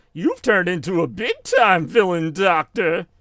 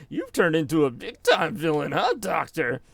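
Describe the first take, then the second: First: Mocking taunt, higher and drawn out; Sonic. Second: Lightly mocking taunt; Sonic. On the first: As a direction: taunt the villain like a cartoon hero. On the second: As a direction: needle the villain with a teasing question at the end. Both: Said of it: "he's, like, mocking him".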